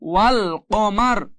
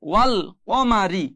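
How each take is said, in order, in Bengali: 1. শব্দটি r ব্যঞ্জনধ্বনি দিয়ে শেষ হয়। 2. শব্দটি i স্বরধ্বনি দিয়ে শেষ হয়।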